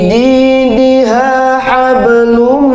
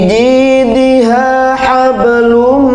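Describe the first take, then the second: No difference in how they are said.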